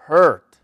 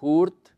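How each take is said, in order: First: The word has an English vowel and r sound. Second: The word is read with Spanish-style letter sounds. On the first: The speaker calls it right. "se dice hurt" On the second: The speaker calls it wrong. "no se dice hurt"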